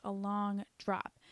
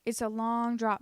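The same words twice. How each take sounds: First: Slow ominous. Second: Said in the usual way. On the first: Shown as a demonstration.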